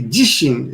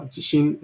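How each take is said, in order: First: "jishin" with the pitch high on "ji"; high first mora. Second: "jishin" with level pitch, no peak on "ji"; unaccented, evenly pitched "jishin"; flat pitch accent. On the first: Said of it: "high pitch on the first mora". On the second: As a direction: keep "jishin" flat across both syllables. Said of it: "is pronounced flat". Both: Shown as a demonstration.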